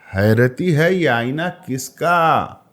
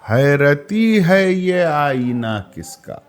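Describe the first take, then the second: First: It is read with a questioning, changed intonation. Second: It is read with a settled, statement-like tune. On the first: It asks why the mirror searches every face. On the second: The mirror is bewildered and looks at everyone.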